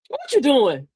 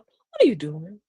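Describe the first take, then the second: First: It is asked in a sharp, accusing tone. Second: It is asked in a warm, open tone. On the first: The listener feels challenged and holds back. "The second one you got kind of apprehensive" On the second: The listener feels welcome to answer. "the first one you feel, oh, I know, I'm gonna tell her what I'm doing"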